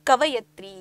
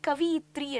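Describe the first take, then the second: First: The second syllable is said as 'va'. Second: The second syllable is said as 'vi'. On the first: The speaker calls it right. "ಸರಿಯಾದ ಉಚ್ಚಾರ ಕವಯತ್ರಿ" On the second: The speaker calls it wrong. "ಕೆಲವೊಂದ್ಸತಿ ಇದನ್ನ ಕವಿಯಿತ್ರಿ ಅಂತ ಬಳಸ್ತಾರೆ"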